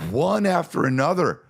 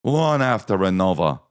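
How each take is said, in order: First: Put-on high-pitched exasperation in own accent; exasperated. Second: Put-on British accent. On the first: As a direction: complain in a high, fed-up voice. Usual accent, before British version. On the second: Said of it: "to hear their accents".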